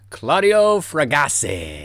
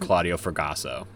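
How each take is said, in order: First: The name is said with a marked foreign accent. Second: The name is said plainly, like ordinary English. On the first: "Should I say it not like that?" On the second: "like a normal person"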